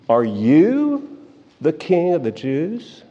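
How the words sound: The word 'you' is strongly stressed. The speaker calls it right. "The "you" is emphatic"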